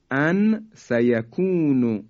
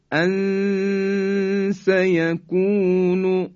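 First: Said in the usual way. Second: ان سیکون slow, nun hidden with long nasal hum; ikhfa demo. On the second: Shown as a demonstration. Teacher reciting the example slowly with ikhfa. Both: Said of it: "مثال بعدی".

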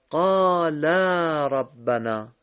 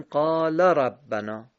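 First: قال ربنا with قالا's final vowel held long; correct long ending. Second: قال ربنا with the final vowel of قال cut short; wrong short ending. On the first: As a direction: stretch قالا before ربنا. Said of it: "اگر کلمهٔ قالا رو بگیم قال ربنا". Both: Shown as a demonstration.

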